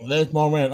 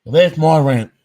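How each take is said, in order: First: Laughing. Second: Said in the usual way. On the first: Real, not acted. Vlogger laughing at his own rant to viewers. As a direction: chuckle it out, amused at yourself.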